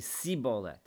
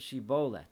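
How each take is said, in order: First: The word begins with an s sound. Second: The word begins with an sh sound. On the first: The speaker is from the tribe of Ephraim. The speaker calls it wrong. "apparently they had like a lisp" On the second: The speaker is not from the tribe of Ephraim. The speaker calls it right. "They were not able to say it with a shin sound, an sh sound"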